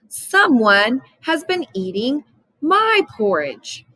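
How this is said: It is said in a big, deep voice. "in his great big voice"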